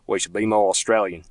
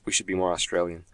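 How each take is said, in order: First: Put-on Australian accent; lightly hammed-up Australian accent. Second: Said in the usual way. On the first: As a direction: say it like a mock Aussie.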